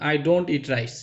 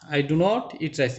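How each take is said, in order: First: 'Do not' is contracted into one syllable. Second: 'Do not' is said as two full words.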